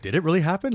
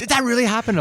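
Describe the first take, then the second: First: High, loud stunned question; retold disbelief. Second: Very high, loud Australian tourist disbelief; mock Australian astonishment. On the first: Rider checking himself after the bike flip, stunned disbelief. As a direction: echo the onlooker in amazed disbelief, a little less extreme. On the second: Australian tourist gaping at the rider's landing, astonished Australian accent. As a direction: squeal it as a hammed-up Australian onlooker. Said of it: "a couple Australian tourists standing there".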